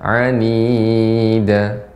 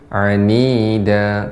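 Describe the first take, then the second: First: The long vowel is held too long. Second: The long vowel is held for two beats. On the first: The speaker calls it wrong. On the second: The speaker calls it right. "cukup dibaca dua harokat saja"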